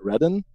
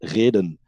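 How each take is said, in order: First: It is said with an English pronunciation. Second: It is said with a Dutch pronunciation. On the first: It is how English speakers would say it. "but in American or English, it would be Redden" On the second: It is the Dutch word for reason. "in Dutch ... it's said reden"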